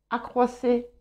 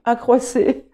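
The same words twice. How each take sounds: First: Said in the usual way. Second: Accroissez said firm and louder, settled; confirmed. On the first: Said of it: "parfois, je peux avoir des doutes". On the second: Shown as a demonstration. Card reader confirming the verb form to viewers, assured. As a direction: land accroissez with relief and certainty.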